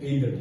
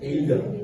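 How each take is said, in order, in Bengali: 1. এটি আমেরিকান উচ্চারণে বলা হয়েছে। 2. এটি ব্রিটিশ উচ্চারণে বলা হয়েছে। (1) "আমেরিকান হচ্ছে হবে" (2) "ব্রিটিশ উচ্চারণ হবে"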